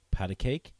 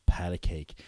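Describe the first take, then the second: First: "Pat a cake?" rising at the end as a question; asking tune. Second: "Pat a cake." falling, settled; firm statement. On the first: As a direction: offer "Pat a cake?" with a lifted "cake". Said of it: "Iron Fist turns to Luke Cage and goes". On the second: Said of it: "He goes". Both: Retold or imitated.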